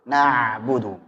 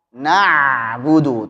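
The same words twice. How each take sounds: First: The ain has moderate pressure. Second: The ain is pressed too hard. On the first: The speaker calls it right. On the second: The speaker calls it wrong. "terlalu ditekan"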